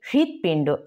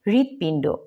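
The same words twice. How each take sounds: First: A slight h sound is heard at the start. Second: It starts directly with no h sound. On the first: The speaker calls it right. "একটু হালকা হয়ের ভাব আছে আর কি এর মধ্যে" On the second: The speaker calls it wrong. "হৃৎপিণ্ড বলবো না"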